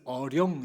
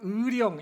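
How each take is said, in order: First: The first vowel is a plain eo sound. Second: The first vowel is the diphthong ui.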